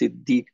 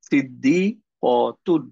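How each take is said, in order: First: The word ends in a soft 'h' sound. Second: The word ends in a full 'tun' sound. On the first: The speaker stops on this word. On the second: The speaker carries on past this word.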